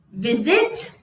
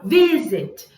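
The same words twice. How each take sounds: First: Visit stressed on zit, rising at the end; wrong final stress. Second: Visit with strong first syllable, falling zit; stress on vi. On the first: Teacher testing the wrong way, Visit with stressed zit. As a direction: push the end of Visit upward. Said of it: "não". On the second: Teacher giving the right way, Visit with stressed Vi. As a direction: hit Vi and drop the end of Visit. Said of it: "qual parte ela sobe?". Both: Shown as a demonstration.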